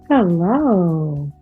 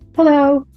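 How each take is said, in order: First: It is said in a flirtatious tone. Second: It is said quickly and hurriedly. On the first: The speaker is romantically interested. "Sort of flirtatious" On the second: The speaker has no time to talk. "I'm kind of in a hurry"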